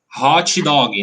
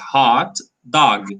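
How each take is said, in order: First: The T and G are strongly released. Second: The T and G are very weak. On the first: The speaker calls it wrong. "with a T very strong and a G very strong" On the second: The speaker calls it right. "It's very weak"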